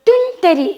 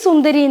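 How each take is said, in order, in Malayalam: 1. ഈ വാക്ക് t ശബ്ദത്തിലാണ് തുടങ്ങുന്നത്. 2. ഈ വാക്ക് s ശബ്ദത്തിലാണ് തുടങ്ങുന്നത്. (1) "സുന്ദരി എന്ന് പറയാൻ അറിയില്ല. അപ്പോൾ തുന്തരി എന്ന് പറയും" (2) "അവളുടെ പേര് സുന്ദരി എന്നാ"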